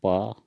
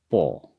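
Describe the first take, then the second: First: "प" with an open a vowel; Hindi pronunciation. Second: "पो" with a rounded o; Assamese pronunciation. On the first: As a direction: say "प" the Hindi way, ending in a. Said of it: "Hindi में प". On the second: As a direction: say "पो" the Assamese way, o instead of a. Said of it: "असमिया में". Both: Shown as a demonstration.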